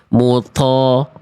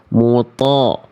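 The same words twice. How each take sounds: First: The t sound is released with a puff of breath. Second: The t sound is released with no breath. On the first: The speaker calls it wrong. "bunyinya tadi begini yang B, yang salah" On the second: The speaker calls it right. "harusnya muto itu ada di jawaban pilihan yang A"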